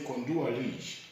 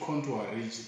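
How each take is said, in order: First: It is said in a Malawian English way. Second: It is said in a standard English way.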